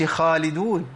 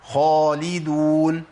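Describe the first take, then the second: First: خالدون with a light thin خا; wrong demo of خالدون; thin wrong kha. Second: خالدون with a heavy full خا, slowly; slow correct demo of خالدون; heavy kha. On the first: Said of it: "ما أقولش". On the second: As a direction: say خالدون thick and emphatic. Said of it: "إيه تاني؟". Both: Shown as a demonstration.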